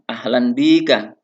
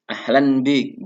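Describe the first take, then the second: First: The phrase ends with a vowel after k. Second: The phrase ends on a bare k sound.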